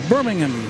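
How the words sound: It is pronounced the British way. "I guess that's the way you say it in England"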